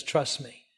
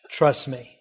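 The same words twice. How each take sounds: First: Much softer, tender invitation; gentle Jesus voice. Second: Said in the usual way. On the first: Retold or imitated. Missionary voicing Jesus to supporters, soft and tender. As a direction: say it softly, like an offer of comfort. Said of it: "He says". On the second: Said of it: "Nowhere does Jesus ever say".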